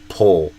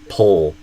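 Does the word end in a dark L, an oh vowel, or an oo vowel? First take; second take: dark L; dark L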